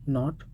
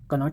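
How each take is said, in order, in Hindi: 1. यह शब्द n की आवाज़ से शुरू होता है। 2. यह शब्द k की आवाज़ से शुरू होता है। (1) "K silent in not" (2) "कनॉट नहीं पढ़ा जाएगा"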